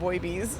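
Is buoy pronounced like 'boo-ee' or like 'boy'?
boy. Buoy is said with one syllable, like boy. "otherwise it's boy bees"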